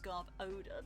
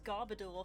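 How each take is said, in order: First: The ending sounds like the word odor. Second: The ending does not sound like odor. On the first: The speaker calls it right. "of course it's Garbodor because it's odor" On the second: The speaker calls it wrong. "which I pronounced as Garbodor for ages"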